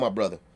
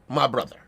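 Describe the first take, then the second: First: It sounds relaxed and natural. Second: It sounds forced and put-on. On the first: It is the speech style as really used. The speaker calls it right. "it's a way we say that shit" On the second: An outsider is faking the speech style. The speaker calls it wrong. "he's intentionally putting on that voice"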